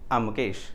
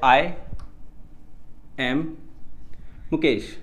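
First: "I" and "am" are joined into one syllable. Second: "I" and "am" are said as separate words.

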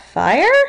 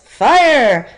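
First: It is said like a rising question. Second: It is said like a forceful exclamation.

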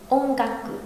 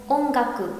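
Both takes have the same delivery.

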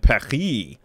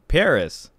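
First: Paris is said with a French pronunciation. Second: Paris is said with an American English pronunciation. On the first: The speaker calls it wrong. "I think it would be awfully pretentious to say I was born in Paris" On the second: The speaker calls it right. "I have an American accent. ... I say Paris, pronounced Paris"

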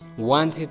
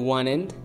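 First: The T after the N is pronounced. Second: The T after the N is dropped.

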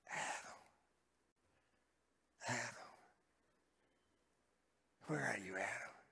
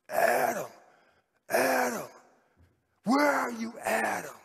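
First: It is said in a weeping voice. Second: It is said in an angry voice.

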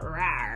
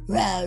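First: The sound is placed forward, not in the throat. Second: The sound is guttural and placed in the throat. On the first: The speaker calls it right. "I really challenge you to get that rah" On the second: The speaker calls it wrong. "We don't want guttural. We don't want it in the throat"

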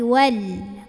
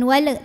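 First: The final l is held without a bounce. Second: The final l is released with a bounce. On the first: The speaker calls it right. "tapi wal. Ujung lidahnya tempel ke gusi" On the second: The speaker calls it wrong. "jangan mantul. Jangan wal"

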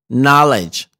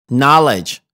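Both takes have the same delivery.

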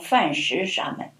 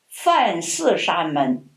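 First: The second syllable is pronounced 'shi'. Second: The second syllable is pronounced 'si'. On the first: The speaker calls it wrong. "不能念成梵食沙门" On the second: The speaker calls it right. "在这里念寺"

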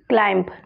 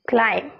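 First: The final b sound is pronounced. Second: The final b sound is silent. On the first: The speaker calls it wrong. "Wrong" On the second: The speaker calls it right. "CLIM, यहाँ तक ही हमें बोलना है"

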